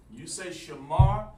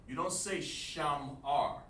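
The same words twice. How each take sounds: First: "shamar" said slowly with the "sha" sound, then "mar"; correct shamar. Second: "shamar" with a flat, open "sham" as the wrong version, slowly. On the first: Teacher corrects a student in class, slowly stressing the word. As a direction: show the right way: "shamar", slow and careful. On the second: Teacher shows a student the wrong way, slowly. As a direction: show the mistake: "shamar", drawn out. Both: Shown as a demonstration.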